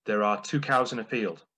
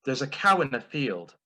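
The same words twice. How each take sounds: First: Said in the usual way. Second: Flustered mum impression. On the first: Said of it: "that same joke in the style of my mum". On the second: Son imitating his mum getting it wrong, flustered. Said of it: "in the style of my mum".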